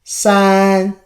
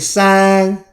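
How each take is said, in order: Both takes have the same delivery.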